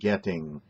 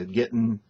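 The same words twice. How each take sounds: First: The word ends with an audible G sound. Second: The word ends without a G sound. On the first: The speaker calls it right. "Let me hear the G sound" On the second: The speaker calls it wrong. "where you use getting"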